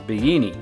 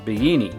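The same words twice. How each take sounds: First: The double L sounds like a Y. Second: The same.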